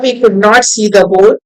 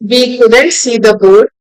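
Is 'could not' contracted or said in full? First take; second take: full; contracted. First: 'Could not' is said as two full words. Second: 'Could not' is contracted into one word.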